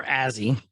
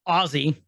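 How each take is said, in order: First: AZZY with a short "a" as in "jazz"; Azzy pronunciation. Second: OZZY with an open "ah" first; Ozzy pronunciation. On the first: Podcaster trying out the droid's name, Azzy with short "a". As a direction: say "Azzy" to rhyme with snazzy. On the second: Podcaster correcting the droid's name, Ozzy with "ah". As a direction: say "Ozzy" starting like "Oz". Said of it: "it's Ozzy". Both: Shown as a demonstration.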